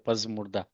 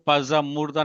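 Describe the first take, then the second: First: The z runs straight into murda with no vowel. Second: An extra vowel is added after the z sound. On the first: The speaker calls it right. "उसको बोलते हैं पजमुर्दा" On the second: The speaker calls it wrong. "आपको पजा मुर्दा नहीं पढ़ना"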